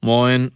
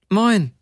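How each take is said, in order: First: Rough-voiced MOIN at everyday pitch. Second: Much higher, louder woman's greeting; high-voiced answering hello; higher-pitched reply. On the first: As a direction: greet like a rough-voiced stoker. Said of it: "raue Stimme sagte". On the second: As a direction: pitch the greeting well up, then let it fall. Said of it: "sagte die Frau zwei volle Töne höher".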